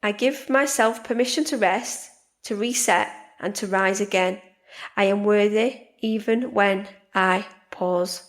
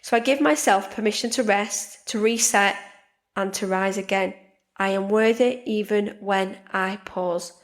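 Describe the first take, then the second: First: Slower, gentle affirmation again; calm repeated affirmation. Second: Affirmation. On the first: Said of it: "So I'll do that again". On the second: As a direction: speak it as a calm promise to yourself. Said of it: "make some manifestations". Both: Shown as a demonstration.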